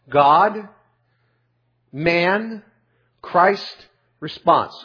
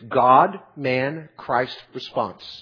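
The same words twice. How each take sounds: First: The list is spoken slowly. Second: The list is spoken quickly.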